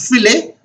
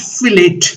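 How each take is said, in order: First: The word ends in an 'ay' sound. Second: The word ends in an 'it' sound. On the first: The speaker calls it right. "pronunciation is filet" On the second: The speaker calls it wrong. "It is not fillet"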